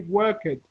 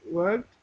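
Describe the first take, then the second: First: The ending has an extra vowel syllable. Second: The word ends directly in a consonant. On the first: The speaker calls it wrong. "a lot of Brazilian people say work it" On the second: The speaker calls it right. "but it's pronounced worked"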